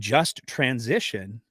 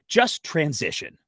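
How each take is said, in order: First: It is said as a plain, neutral noun phrase. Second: It is said as a forceful, punchy order. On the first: The transition is fair. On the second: People are being told to simply make the transition.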